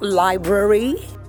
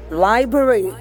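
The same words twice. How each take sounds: First: There is an R sound right after the B. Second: There is no R sound right after the B. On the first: The speaker calls it wrong. "not library" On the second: The speaker calls it right. "How did I say it? Library"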